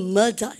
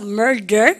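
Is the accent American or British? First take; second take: British; American. First: The r sounds are dropped. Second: The r sounds are fully pronounced. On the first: "영국 사람들은 murder 이렇게 얘기해요" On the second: "미국 애들은 중간에 R 발음이나 끄트머리에 R 발음을 끝까지 하는 걸 좋아합니다. 그래서 murder 이렇게 해요"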